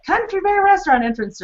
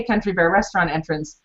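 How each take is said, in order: First: High, lilting take on the sign; sing-song variation. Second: Said in the usual way. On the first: Shown as a demonstration. Showing listeners another way to read the sign, high and lilting. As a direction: play with the pitch of the phrase. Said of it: "say that sign in so many different ways". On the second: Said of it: "or you could just say".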